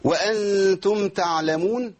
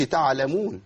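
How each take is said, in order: First: Slowly chanted وأنتم تعلمون, higher pitched; still ayn. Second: Faulty تعلمون with the ع set moving; vowelled ayn. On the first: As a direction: recite تعلمون with a vowelless ع. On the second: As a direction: bounce off the ع in تعلمون. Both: Shown as a demonstration. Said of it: "العين ساكنة ما حركهاش".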